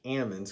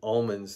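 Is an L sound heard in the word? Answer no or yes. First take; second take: no; yes. First: The L sound is dropped from the word. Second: The L sound is pronounced in the word. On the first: "they pronounce it almonds because they shake the L out of it" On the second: "they don't pronounce it almonds"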